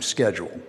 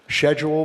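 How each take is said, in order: First: It is said in an American accent. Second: It is said in a Canadian accent.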